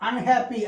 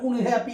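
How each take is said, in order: First: The first vowel is an open 'uh' sound. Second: The first vowel is a rounded 'oo' sound. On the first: The speaker calls it right. "അൺഹാപ്പി അല്ലാണ്ട്" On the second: The speaker calls it wrong. "ഉൺഹാപ്പി എന്ന് നമ്മൾ പറയാറില്ല"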